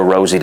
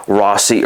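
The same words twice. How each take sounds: First: "Rosie" said with a buzzing z; pronounced "Rosie". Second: "Rossi" said with a hissed s; pronounced "Rossi". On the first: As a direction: say "Rosie" like the name, with a z sound. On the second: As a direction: say "Rossi" with an s sound, not z. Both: Shown as a demonstration. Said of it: "how it's pronounced".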